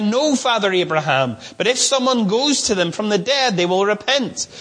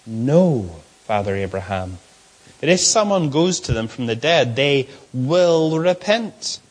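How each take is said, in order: First: Said in the usual way. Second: Lower, dismissive retort to Abraham; arrogant rich man. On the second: Shown as a demonstration. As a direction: talk back with arrogance, dragging the end. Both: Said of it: "Look at how he speaks".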